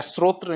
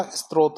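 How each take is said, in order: First: स्रोत्र opening 'sr', ending 'tra'; wrong form. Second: स्रोत with an added 't' after 's', ending in 't'; contrasting form. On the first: Teacher rejecting a spelling, स्रोत्र with final 'tra'. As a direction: say स्रोत्र as srotra. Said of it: "नहीं होता". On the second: Teacher giving the contrast, स्रोत as istrot. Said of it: "होता है". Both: Shown as a demonstration.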